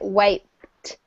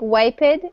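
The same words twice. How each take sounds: First: The word ends in a T sound. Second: The word does not end in a T sound. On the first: The speaker calls it right. "we pronounce it wiped with a T sound at the end" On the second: The speaker calls it wrong. "it looks like wiped"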